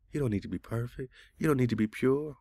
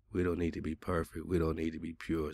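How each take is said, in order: First: High-pitched mock repeat of a claim; incredulous echo. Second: Said in the usual way. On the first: Man reading the chatbot's claim back, incredulous.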